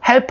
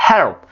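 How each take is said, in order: First: "help" with a clear Korean-style "hel-peu"; fully sounded l and p. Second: "help" with the tongue curled up and the p dropped; curled l, swallowed p. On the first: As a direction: spell out every sound in "help", releasing the p. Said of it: "help 하지 마시고". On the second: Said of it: "혀를 현자-, 천장에 꼬부라뜨리면서". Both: Shown as a demonstration.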